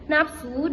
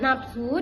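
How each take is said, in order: First: The middle consonant is a p sound. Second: The middle consonant is an f sound. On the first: The speaker calls it wrong. "fonem F dilafalkan menjadi P" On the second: The speaker calls it right. "Lafalan bakunya terdiri dari kata nafsu"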